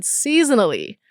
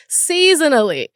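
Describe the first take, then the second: First: Said in the usual way. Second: SEASONALLY pitched high, then falling; incredulous repeat. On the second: Real, not acted. Vlogger reacting to researchers' claim about male hormones, incredulous. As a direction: repeat it higher, in disbelief.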